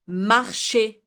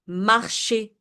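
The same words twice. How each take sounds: The two takes are said the same way.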